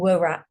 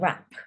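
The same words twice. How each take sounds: First: The word begins with a W sound. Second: The word begins with no W sound. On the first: The speaker calls it wrong. "we're not saying wrap" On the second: The speaker calls it right. "we're saying wrap"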